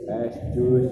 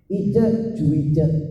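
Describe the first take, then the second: First: The name is said with plain Indonesian sounds. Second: The name is said with English-style sounds. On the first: It sounds like the name of an iced drink. "atau dibaca es jus" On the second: It sounds like a fancy foreign name. "ke Inggris-Inggrisan"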